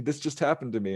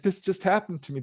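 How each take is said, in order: First: Said in the usual way. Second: First take pitched much higher and urgent; frantic telling. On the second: Retold or imitated. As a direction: blurt it out in a panic, voice jumping up. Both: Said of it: "And she's like".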